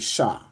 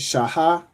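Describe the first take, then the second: First: The two sounds are merged into one syllable. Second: Two separate syllables, sha then ha. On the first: The speaker calls it right. "if you join the sha and the ha, it becomes sha" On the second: The speaker calls it wrong. "instead of saying shaha"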